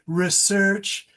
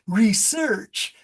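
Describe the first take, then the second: First: It is said in a standard northern US accent. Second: It is said in a Southern US accent. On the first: "if we stay with the New York, Chicago, Boston" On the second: "that's a real southern accent"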